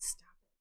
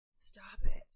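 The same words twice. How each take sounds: First: Said in the usual way. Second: Breathy stop it, whispered. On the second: Pretend. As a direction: whisper it close to the mic.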